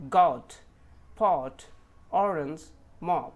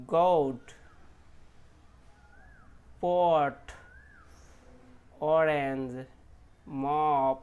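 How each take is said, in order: First: গট, পট, মপ with a short open a-like o, loud and firm; correct pronunciation. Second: গট, পট, মপ with a rounded o, the mistake; wrong pronunciation. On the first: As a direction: say it the right way, crisp. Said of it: "correct pronunciation". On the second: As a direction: imitate the non-native misreading. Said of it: "তারা কিন্তু এটা কেমন করে প". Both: Shown as a demonstration.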